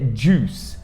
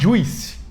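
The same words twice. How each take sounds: First: No extra I vowel is heard in the word. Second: An extra I vowel is heard in the word. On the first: The speaker calls it right. "esse I não é pronunciado" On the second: The speaker calls it wrong. "tem esse I e todo mundo fala juice"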